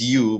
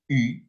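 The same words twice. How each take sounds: First: The letter is said with English pronunciation. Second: The letter is said with French pronunciation. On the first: "This is u" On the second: "but in, in French it's uh, u"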